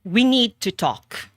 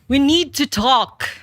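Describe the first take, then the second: First: It sounds like a stern boss. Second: It sounds alarmed, as if something terrible happened.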